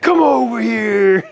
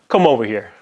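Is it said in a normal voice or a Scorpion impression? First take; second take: Scorpion impression; normal voice. First: It is said in a Scorpion impression voice. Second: It is said in a plain, ordinary voice.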